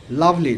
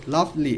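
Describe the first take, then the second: First: Said in the usual way. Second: lovely split in two, lav - li; syllable by syllable. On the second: Shown as a demonstration. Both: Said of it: "ভেঙে ভেঙে উচ্চারণ করব".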